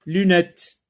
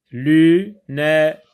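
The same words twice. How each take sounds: First: Said in the usual way. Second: "lunette" broken into lu, nè, te, loud and separate; split into syllables. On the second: Shown as a demonstration. Teacher dividing the word for pupils, split into syllables. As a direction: say "lunette" syllable by syllable, pausing after each. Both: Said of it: "on décompose le mot en syllabes".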